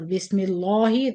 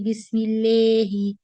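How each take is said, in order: First: The 'la' is heavy and full-mouthed. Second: The 'la' vowel is bent toward an 'e' sound. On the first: "Or Bismillahi. This is tafkhim" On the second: "Don't say Bismillahi. This is imala"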